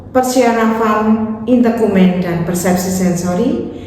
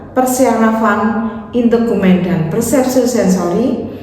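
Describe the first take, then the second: The two takes are said the same way.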